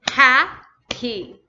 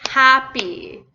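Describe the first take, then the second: First: HAPPY split in two, with a clear gap; teacher sounding out Happy in two separate parts; broken into syllables. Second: Said in the usual way. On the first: Shown as a demonstration. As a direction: say Happy beat by beat, pausing between syllables. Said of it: "in each syllable". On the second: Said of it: "So two vowels".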